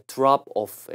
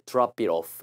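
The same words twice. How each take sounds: First: Said in the usual way. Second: "drop it off" run together, t flapped; linked pronunciation. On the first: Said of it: "it이 들어가면 소리가". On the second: Shown as a demonstration. Teacher showing how "it" changes "drop off", linked. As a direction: link "drop it off" like "drah-pi-roff". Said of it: "소리가 이렇게 좀 바뀝니다".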